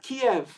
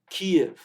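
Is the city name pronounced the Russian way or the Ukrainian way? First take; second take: Russian; Ukrainian. First: The name is said in its Russian form, Kiev. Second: The name is said in its Ukrainian form, Kyiv. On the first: This is the Russian name for the city. The speaker calls it wrong. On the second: This is the Ukrainian name for the city. The speaker calls it right.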